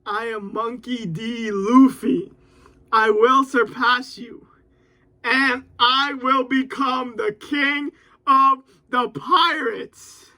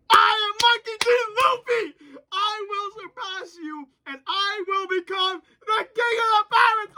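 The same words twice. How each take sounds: First: Slow, steady heroic declaration; mild recited vow; dramatic reciting. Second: Hyped yelling. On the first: Acted. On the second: Real, not acted. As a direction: shout along with the hero's vow. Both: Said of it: "I said, "Luffy ... says".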